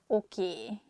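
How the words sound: It is said with a Hungarian ending vowel. "we just say a sound A at the end, so it sounds okay"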